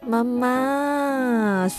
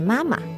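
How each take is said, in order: First: The second syllable is long and stretched out. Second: The second syllable is short and light. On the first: "See, that's not light anymore. You're stretching it a lot" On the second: "Properly in Chinese, the pronunciation is supposed to be mama. So the second tone is actually a light tone"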